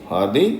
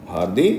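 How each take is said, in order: The two takes are said the same way.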